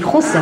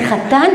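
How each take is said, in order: First: It sounds like chosn, with o and an s ending. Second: It sounds like chatan, with two a vowels.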